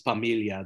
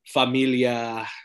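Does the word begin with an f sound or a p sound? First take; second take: p; f. First: The word begins with a p sound. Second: The word begins with an f sound. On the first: This is the Tagalog form of the word. "Those F's become P's in Tagalog" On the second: This is the Spanish form of the word. "family in Spanish"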